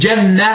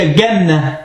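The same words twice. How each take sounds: First: The word begins with a soft j sound. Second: The word begins with a hard g sound. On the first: The speaker calls it right. "I stedet for at sige Janna" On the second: The speaker calls it wrong. "de siger Janna"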